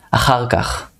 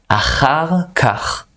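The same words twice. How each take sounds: First: Said in the usual way. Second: Achar kach said higher and slowly; higher slow model. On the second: Shown as a demonstration. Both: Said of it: "hard word to pronounce".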